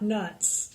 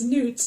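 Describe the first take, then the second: First: The vowel is a short 'uh' sound. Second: The vowel is a long 'oo' sound. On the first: The speaker calls it wrong. "not nuts" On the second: The speaker calls it right. "It's newts"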